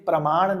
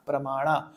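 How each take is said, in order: First: The word ends on a bare consonant. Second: The word ends on a full final vowel. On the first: This is the changed, Hindi form of the word. The speaker calls it wrong. "ये प्रमाण नहीं है भाई, ये Hindi ... changed form है" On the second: This is the pure Sanskrit form of the word. The speaker calls it right. "शुद्ध जो उच्चारण होगा वो होगा प्रमाणा"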